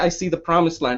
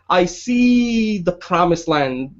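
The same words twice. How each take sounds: First: It is said plainly, without strong emphasis. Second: It is said with strong, powerful emphasis.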